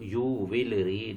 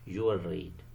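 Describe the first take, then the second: First: 'Will' is said as a separate full word. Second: The l of 'will' blends into the r. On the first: The speaker calls it wrong. "ऐसे तो नहीं" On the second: The speaker calls it right. "एल और आर sound ये आपस में मिल जाती है"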